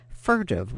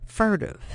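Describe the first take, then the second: First: Said in the usual way. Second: "Furtive" repeated higher, weighed and falling; "Furtive" said alone, higher, with a settling fall; echoed word. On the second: A narrator's reading. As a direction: land on "Furtive" as a slow realisation. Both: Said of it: "the only word that came to mind".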